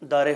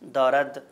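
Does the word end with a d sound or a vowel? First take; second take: vowel; d. First: The word ends with an e vowel. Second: The word ends with a d sound.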